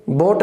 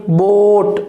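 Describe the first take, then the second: First: बोट with a short, quick o; wrong short vowel. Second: बोट with a long drawn oh; long diphthong. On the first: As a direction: say बोट without stretching the vowel. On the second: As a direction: stretch the vowel in बोट before the t. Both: Shown as a demonstration. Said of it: "बोट नहीं".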